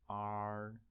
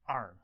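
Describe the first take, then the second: First: The pitch stays high and level. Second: The pitch falls sharply from high to low. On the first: "Sounds like very tedious monotone" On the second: "the fourth tone is going to be R"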